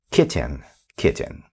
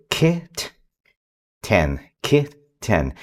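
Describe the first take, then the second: First: Kitten said smoothly as one sound, softer; blended into one word. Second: Kit and ten said slowly, apart; slow syllable blending. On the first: Parent finishing the blend for a child, smooth and soft. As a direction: let the double T melt together. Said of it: "meld into each other". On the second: Parent joining two chunks for a child, slowly. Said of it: "we start kind of slow". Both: Shown as a demonstration.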